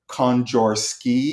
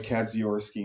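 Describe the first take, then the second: First: The surname is given its Polish pronunciation. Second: The surname is given an American pronunciation. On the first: The speaker calls it right. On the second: The speaker calls it wrong. "I had mispronounced my last name for all my life"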